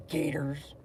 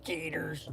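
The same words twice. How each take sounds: First: Said in the usual way. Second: Soft whispered Gators; whispered echo. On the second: Shown as a demonstration. Echoing his own word in a whisper.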